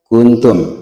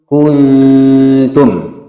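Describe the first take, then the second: First: The vowels are kept at their normal length. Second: A voweled letter is stretched longer than normal.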